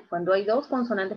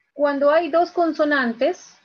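First: Said in the usual way. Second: Slow, loud and high, leaning on "dos"; teacher stressing "dos consonantes". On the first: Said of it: "repeats the rule normally". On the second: Shown as a demonstration. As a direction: spell it out slowly, hitting "dos". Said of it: "teacher stresses the rule".

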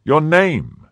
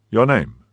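First: Loud, high, imperious demand; insistent cry. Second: Mildly raised, firm question; official demand. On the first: Cardinal demands the musketeer's name, loud and insistent. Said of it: "cried his Eminence for the third time". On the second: Officer questions Athos, firm. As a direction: ask it as an order. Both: A narrator's reading.

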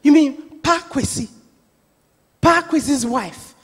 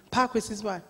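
First: Louder, slowing on "Pa Kwesi's wife"; insistent repeat. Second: Said in the usual way. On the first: Retold or imitated. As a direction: hit "Pa Kwesi" hard, questioning it as the auntie. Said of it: "and she says again".

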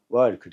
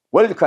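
First: 월크 with the vowel and L drawn out; lengthened R sound. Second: 월크 with no lengthening of the L; short wrong pronunciation. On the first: Teacher shows students the R-L ending, lengthened 월크. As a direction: stretch 월 one beat before the 크. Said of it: "받침 늘 하되 하나 느려". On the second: Teacher shows what to avoid, short wrong 월크. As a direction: say 월크 short, straight into the K. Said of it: "월크 하지 말고". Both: Shown as a demonstration.

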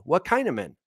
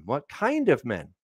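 First: Said in the usual way. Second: Slower, pondering the question aloud; musing repeat. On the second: Shown as a demonstration. Preacher muses over the question, slowly. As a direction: turn it over as if thinking it through.

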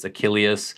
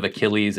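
First: Achilles said ah-KILL-ee-us, four syllables; Achilles, older Greek form. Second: Achilles said ah-KILL-eez, three syllables; Achilles, modern English. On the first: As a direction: Achilles ending in -ee-us. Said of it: "So instead of Achilles". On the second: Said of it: "it's Achilles". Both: Shown as a demonstration.

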